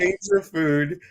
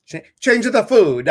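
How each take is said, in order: First: Higher, slow mock Italian accent. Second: Loud, high hammed-up Italian accent bursting out. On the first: Host jokes the fish is Italian, mock Italian. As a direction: play it as a hammy Italian fish. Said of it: "he's a Italian fish". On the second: Pet psychic's advice redone in a big Italian accent. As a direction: belt it like a hammy Italian. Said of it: "you were talking in that Italian voice".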